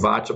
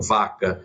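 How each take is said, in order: First: The middle consonant sounds like ch. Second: The middle consonant sounds like an s. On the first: This is the form the speaker prefers. "eu prefiro Vacha, porque ... tem mais um som de Cha" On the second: This is how some other people say it. "Algumas pessoas falam vaca"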